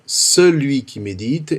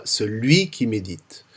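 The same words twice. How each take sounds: First: Celui qui médite, the weight on the ce of celui; stress on first syllable. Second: Celui qui médite, said slowly with the weight moved off the ce of celui onto médite; slower, falling celui qui médite, the stress on médite; wrong stress, spoken slowly. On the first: Teacher contrasts right and wrong stress for cantors, weight on the ce of celui. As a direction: lean on the ce of celui, let the rest follow. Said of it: "la première syllabe est bien celui qui médite".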